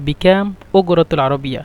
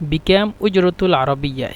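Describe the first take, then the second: First: The consonant is a hard 'g' sound. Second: The consonant is a soft 'j' sound.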